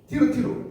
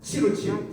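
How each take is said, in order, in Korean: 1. 음절이 네 개이고, 모음이 추가되며 t 소리가 나요. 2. 음절이 네 개이고, t 소리가 ch로 바뀌어요. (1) "티르티루 이렇게 나오는 거예요" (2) "치 발음을 쓰는 거예요"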